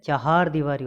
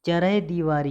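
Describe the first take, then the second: First: चहार दीवारी as "cha-haar"; correct syllable order. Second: चरह दीवारी as "cha-rah"; wrong syllable order. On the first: Teacher correcting students, long "haar" in चहार दीवारी. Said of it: "होती है". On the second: Teacher showing the error, "charah" in चरह दीवारी. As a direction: put r before h in चरह दीवारी. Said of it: "ये बिल्कुल गलत है". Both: Shown as a demonstration.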